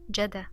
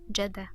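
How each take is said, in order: First: The d sound is short, said once. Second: The d sound is short, said once.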